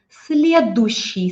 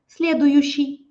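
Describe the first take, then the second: First: The middle 'yu' sound is dropped. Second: The middle 'yu' sound is clearly pronounced. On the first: This is the usual everyday way. "we pronounce следующий often without you" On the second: This is the careful articulated way. "if you want to articulate"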